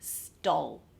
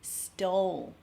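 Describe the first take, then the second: First: The O vowel is short before the L. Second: The O vowel is long before the L. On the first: The speaker calls it wrong. "not stole as in a short O sound" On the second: The speaker calls it right. "It's a longer O with an L"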